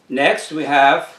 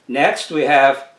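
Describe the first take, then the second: No difference in how they are said.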